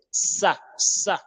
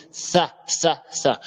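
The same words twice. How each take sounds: First: "ça" repeated with a hissed French S; French S sound. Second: "ça" begun with an unvoiced th; tongue between teeth. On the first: Teacher drilling sin after the contrast, French S in "ça". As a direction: say each "ça" with S, no lisp. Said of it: "comme le S A en français". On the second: Teacher drilling the confusable letter, interdental th in "ça". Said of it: "on met la langue entre les dents". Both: Shown as a demonstration.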